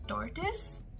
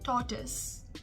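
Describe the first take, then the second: First: The R sound is clearly pronounced. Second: The R sound is not pronounced. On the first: "in the American accent, you consider the R as well" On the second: "in the British pronunciation"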